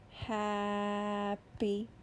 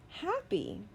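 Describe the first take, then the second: First: The word is stretched out sound by sound. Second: The word is said quickly as one unit. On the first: "I'm going to sound out a word" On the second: "Say it fast"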